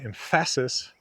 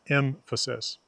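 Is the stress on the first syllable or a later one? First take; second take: later; first. First: The stress is on a later syllable. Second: The stress is on the first syllable. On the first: The speaker calls it wrong. "we're stressing the wrong syllable" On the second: The speaker calls it right. "M is stressed and F isn't"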